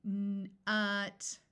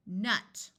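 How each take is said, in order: First: N and ut pulled apart; slow segmented word; said slowly. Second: Sounds blended in one go; quick blended word; said fast. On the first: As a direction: break the word into slow sounds. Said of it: "I'm going to say a word slowly". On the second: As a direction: snap the word together quickly. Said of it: "Say it fast". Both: Shown as a demonstration.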